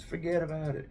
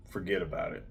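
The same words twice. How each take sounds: First: Put-on higher-pitched, soft movie-mobster Italian accent; Italian mafia accent. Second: Said in the usual way. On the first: Knife reviewer quoting mafia movies to viewers, Italian accent. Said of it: "In the words of the Italian movies, the mafia movies".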